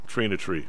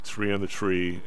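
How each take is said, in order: First: It is said in a South Side Chicago accent. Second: It is said in a plain standard accent. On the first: The speaker calls it right. "south side" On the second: The speaker calls it wrong. "You're saying it wrong"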